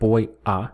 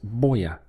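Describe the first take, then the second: First: The two words are said separately. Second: The two words run together as one. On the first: "instead of" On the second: "if you say it fast, then it kind of connects into one"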